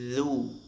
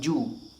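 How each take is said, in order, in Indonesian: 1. Dimulai dengan bunyi 'dh' yang lembut. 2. Dimulai dengan bunyi 'j'. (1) "Pastikan ujung lidah menyentuh gigi seri bagian atas" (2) "Bukan ju. Kayak huruf jim"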